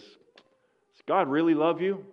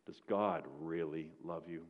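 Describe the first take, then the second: First: Taunting accuser. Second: Quiet taunting accuser. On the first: Satan taunting the old miner. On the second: Accuser whispers after the tears. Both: Retold or imitated.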